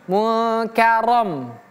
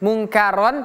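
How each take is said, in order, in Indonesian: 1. Bunyi n sebelum k kabur dan sengau. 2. Bunyi n sebelum k sepenuhnya jelas. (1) "tapi mukarom" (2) "bukan mungkaron"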